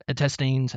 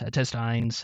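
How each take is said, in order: First: Put-on "intestines" ending like "teens"; intestines, "-teens" variant. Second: "intestines" ending like "tines"; intestines, "-tines" variant. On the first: Offering another way to pronounce it, "intestines" ending in "-teens". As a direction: say "intestines" with a long ee in the last syllable. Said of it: "however you pronounce that". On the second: Offering another way to pronounce it, "intestines" ending in "-tines". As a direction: say "intestines" with a long i, as in "eye", in the last syllable. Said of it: "however you wanna pronounce it".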